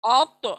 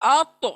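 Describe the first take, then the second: First: The final t is strengthened with a half bounce. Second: The same.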